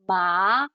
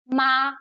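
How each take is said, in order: First: The pitch rises from middle to high. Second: The pitch stays high, short and level. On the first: It can mean hemp. "it goes up. So it, it's also called a rising tone" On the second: It can mean mother. "so it's high, it's short and straight"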